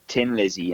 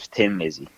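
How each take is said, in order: First: The first word begins with a plain t sound. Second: The first word begins with a th sound. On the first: "no Irish person ever pronounces the T H" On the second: "instead of"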